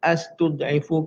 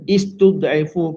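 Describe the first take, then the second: First: The word begins with an a vowel. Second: The word begins with an i vowel. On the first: "astud'ifu ke" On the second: "Istud'ifu ke"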